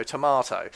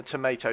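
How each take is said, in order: First: Tomato said "to-MAH-toe"; long AH in the middle of tomato, not AY. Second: Tomato said "to-MAY-toe"; long AY in the middle of tomato. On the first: Commentator dismissing a semantics quibble, tomato with AH. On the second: Commentator dismissing a semantics quibble, tomato with AY. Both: Shown as a demonstration. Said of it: "there isn't a semantics".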